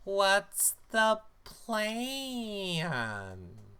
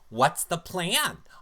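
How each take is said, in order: First: It is said more slowly. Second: It is said too fast.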